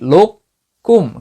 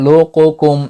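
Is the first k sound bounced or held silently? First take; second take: held silently; bounced. First: The first k is held silently without bounce. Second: The first k is released with a slight bounce. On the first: The speaker calls it right. "কলকলা না করেই বরং আপনি" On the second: The speaker calls it wrong. "এভাবে কিছুটা কলকলা করে নেন, এইটা কলকলা এখানে হবে না।"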